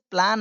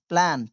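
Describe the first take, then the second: First: "प्लान" with a long aa, plaan; mispronounced plan. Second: Said in the usual way. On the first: Shown as a demonstration. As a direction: say "प्लान" with an open ah vowel. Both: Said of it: "इसे प्लान नहीं पढ़ेंगे".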